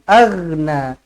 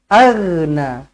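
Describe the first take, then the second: Both takes have the same delivery.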